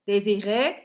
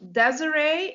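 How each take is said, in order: First: The name is said with a French pronunciation. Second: The name is said with an English pronunciation. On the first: "but it's originally French" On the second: "you pronounce it um, Desiree in English"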